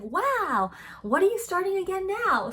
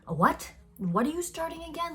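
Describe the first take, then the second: First: It sounds impressed and admiring. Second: It sounds critical and disapproving.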